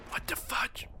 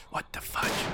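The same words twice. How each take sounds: First: Softer whisper. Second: Confused whisper. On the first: Repeat whisper. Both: Real, not acted.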